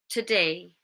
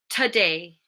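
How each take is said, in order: First: The first syllable has a reduced schwa vowel. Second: The same.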